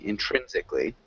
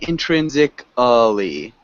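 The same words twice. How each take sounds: First: The vowel before the final -lly is dropped. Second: The vowel before the final -lly is fully sounded. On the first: The speaker calls it right. "We want to remove that A" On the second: The speaker calls it wrong. "You're saying intrinsically"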